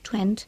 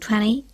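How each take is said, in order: First: The t sound is pronounced clearly. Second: The t sound is nearly silent. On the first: "La pronunciación británica de 20, 30 y 40 es 20, 30, 40, pronunciando la T claramente" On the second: "en inglés americano la T casi no se pronuncia. Ellos dicen"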